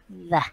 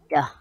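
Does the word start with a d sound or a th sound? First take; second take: th; d. First: The word starts with a soft th sound. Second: The word starts with a hard d sound. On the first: The speaker calls it right. "you could just put your tongue a little bit outside ... Just like this" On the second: The speaker calls it wrong. "when we don't move our jaw, our tongue, our mouth, the tendency is we can pronounce this"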